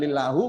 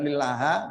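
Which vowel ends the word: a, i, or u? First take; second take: u; a. First: The word ends with a u vowel. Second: The word ends with an a vowel. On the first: "bukan lillahu" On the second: "bukan lillaha"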